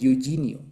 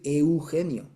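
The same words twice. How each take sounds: First: It is said with an American English accent. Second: It is said with a native Spanish accent. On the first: The speaker calls it wrong. "dicen Eugenio" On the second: The speaker calls it right. "los gringos no pueden decir Eugenio"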